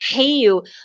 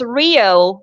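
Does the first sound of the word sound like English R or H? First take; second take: H; English R. First: The first sound is like an h. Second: The first sound is an English-style r. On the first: This is how locals say it. The speaker calls it right. "if it starts in R, it sounds like age" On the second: This is how foreigners say it. The speaker calls it wrong. "everybody says Rio"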